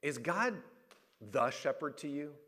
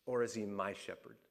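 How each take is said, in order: First: Pause, then "the" stressed before "shepherd". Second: "my" leaned on, voice dropping low and soft; stress on MY. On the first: Preacher questioning the congregation, stress on "the". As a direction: ask it with weight on "the", pitch held up. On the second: Preacher asking the congregation to choose, stress on "my". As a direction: lower and quieter, make "my" personal. Contrasts the shepherd with my shepherd. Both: Shown as a demonstration.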